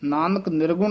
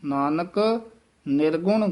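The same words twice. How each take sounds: First: Nanak runs straight into nirgun without a break. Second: A slight break follows Nanak before nirgun. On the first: The speaker calls it wrong. "ਨਹੀਂ ਕਹਿ ਦੇਣਾ ਹੈ" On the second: The speaker calls it right. "ਯਮਕ ਜ਼ਰੂਰ ਲਾ ਕੇ ਬੋਲਣਾ ਹੈ"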